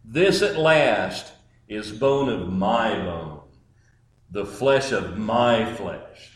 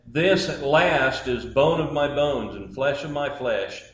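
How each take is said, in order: First: Slow, lower, with "at" stressed and "flesh" falling; right inflections. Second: "This" stressed, read evenly through "at last"; wrong inflections. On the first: Preacher showing Adam's true meaning, stressing "at last". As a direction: lean on "at last" slowly, savoring it. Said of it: "here's the right inflections". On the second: Preacher demonstrating the usual wrong reading, "This" stressed. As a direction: read it flat and routine, hitting "This". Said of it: "the inflections that I'm gonna use are wrong". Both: Shown as a demonstration.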